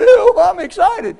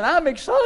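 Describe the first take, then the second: First: High, loud, drawn-out tearful wail; imitated sobbing outburst; mock crying. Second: Said in the usual way. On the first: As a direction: claim it while wailing as if in tears. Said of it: "they say you cry". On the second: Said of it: "I'm, I'm laughing".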